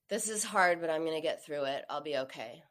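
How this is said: It sounds gloomy, like at a funeral.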